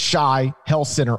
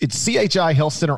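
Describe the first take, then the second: First: The first word is pronounced like 'shy'. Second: The first word is not pronounced like 'shy'. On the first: The speaker calls it wrong. "isn't the Shy Health Center Omaha" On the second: The speaker calls it right. "It's CHI Health Center Omaha"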